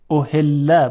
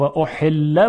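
First: احله with a soft, ordinary ه in place of ح. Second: احله with ح squeezed in the throat; constricted Arabic ح. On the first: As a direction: let a light breathed h flow in احله. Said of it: "با هی دو چشم". (تلفظ احله با هٔ دوچشم نرم) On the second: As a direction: force air through a tight ح in احله. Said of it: "با هی جیمی". (تلفظ احله با حای جیمی گرفته) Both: Shown as a demonstration.

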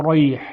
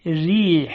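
First: Thick, dark r in «ریح», coloured toward "ro"; wrong heavy ر. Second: Thin, delicate ر in «ریح»; light r gliding into long i in «ریح»; ترقیق. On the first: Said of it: "این نمیشه اصلاً". («ریح» با رای درشت و غلط) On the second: («ریح» با رای نازک و ظریف) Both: Shown as a demonstration.

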